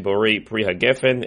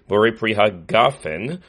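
First: The last word has an 'e' vowel in it. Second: The last word has an 'a' vowel in it. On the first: "rather our minhag is we say" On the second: "good kamatz to say"

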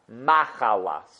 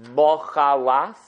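First: The first vowel is read as a patach. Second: The first vowel is read as a komatz. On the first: "or is it with a patach" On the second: "Do you read it with a komatz"

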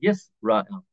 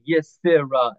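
First: No vowel is heard after the s. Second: A short vowel is heard after the s. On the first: The speaker calls it right. "We say Yisrael. That's called the Sheva Nach" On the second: The speaker calls it wrong. "We don't say Yisrael"

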